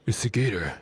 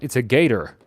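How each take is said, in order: First: Soft whispered aside. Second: Said in the usual way. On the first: Real, not acted. Streamer correcting alligator to gator, whispered aside.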